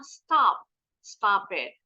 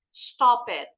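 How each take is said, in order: First: "stop" with a wide open American vowel. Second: "Stop it" with a rounded British O. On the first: Teacher contrasts the American "Stop it" for pupils. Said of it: "Tapi kalau orang Amerika". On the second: Teacher shows the class a British "Stop it". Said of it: "the British would mostly pronounce this word as stop". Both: Shown as a demonstration.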